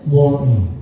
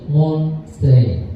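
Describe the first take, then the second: First: It is said in an American accent without clear T. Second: It is said in a British accent with clear T.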